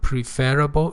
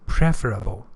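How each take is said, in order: First: The stress is on the second syllable. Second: The stress is on the first syllable. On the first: The speaker calls it wrong. "It's not preferable" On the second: The speaker calls it right. "it is preferable"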